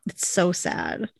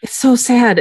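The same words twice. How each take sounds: First: Quiet, slow and sad. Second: Higher, louder, emphatic agreement. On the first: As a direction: let it sink, softly sad. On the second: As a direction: exclaim it with feeling. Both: Real, not acted.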